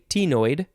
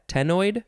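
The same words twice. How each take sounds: First: The first syllable sounds like the letter T. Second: The first syllable is a short 'teh' sound. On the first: "I want to say tenoid" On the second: "instead of T, just te"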